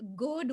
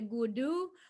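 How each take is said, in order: First: It ends on the consonant d. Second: It ends with an added u vowel.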